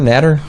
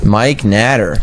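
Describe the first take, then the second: First: Natter? asked with a rising tune, checking the name; unsure rising name. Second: Mike Natter said firmly with a falling tune, settled on Natter; settled falling name. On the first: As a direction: try the name as a tentative question, voice going up on Natter?. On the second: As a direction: land the name with certainty, pitch dropping on Natter. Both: Shown as a demonstration. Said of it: "Mike Natter or Nader?".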